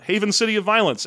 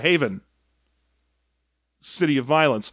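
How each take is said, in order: First: It is said at normal speed. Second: It is drawn out very long.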